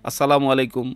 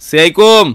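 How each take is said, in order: First: The greeting is said fully with every syllable clear. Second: The greeting is mumbled with syllables swallowed. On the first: The speaker calls it right. "খুবই স্পষ্টভাবে" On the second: The speaker calls it wrong. "সালামটা স্পষ্ট না"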